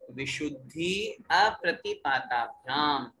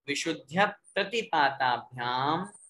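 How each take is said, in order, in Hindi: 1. दोनों शब्द अलग-अलग शब्दों के रूप में बोले जाते हैं। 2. दोनों शब्द एक संधि रूप में जुड़े हुए हैं।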